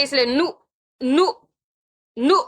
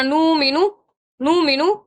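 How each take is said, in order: First: نو said with a sharp catch on the hamza; نو with a short stop; hamza jolt. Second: نو مینو slid together with no hamza jolt; نو مینو without a stop; wrong drawn nu-minu. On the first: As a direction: give نو a clean glottal jolt. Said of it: "اس طرح سے ہم نے پڑھا". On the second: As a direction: blur نو into مینو as a mistake. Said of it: "ہم نے یوں نہیں پڑھنا". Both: Shown as a demonstration.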